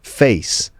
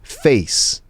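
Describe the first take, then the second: The two takes are said the same way.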